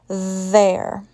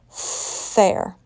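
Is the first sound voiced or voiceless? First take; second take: voiced; voiceless. First: The first sound is voiced, with buzzing. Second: The first sound is voiceless, only air. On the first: The speaker calls it right. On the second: The speaker calls it wrong. "if I pronounced there with a voiceless sound"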